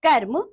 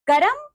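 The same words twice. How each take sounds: First: Said in the usual way. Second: "कर्म" as high, rising "ka-ram"; wrong pronunciation. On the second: Shown as a demonstration. Teacher showing pupils the r error, "कर्म" mispronounced as "karam". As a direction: split "कर्म" into two syllables, "karam". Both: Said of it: "र संबंधी अशुद्धियां".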